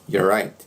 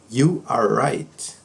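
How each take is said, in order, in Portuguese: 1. É rápido, com cerca de metade dos sons omitidos. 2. Cada palavra é pronunciada completa e separadamente.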